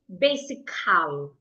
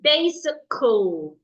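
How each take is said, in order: First: The final vowel is a full open sound. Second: The final vowel is a weak schwa sound. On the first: The speaker calls it wrong. "You shouldn't say basical. No" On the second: The speaker calls it right. "It should be basical"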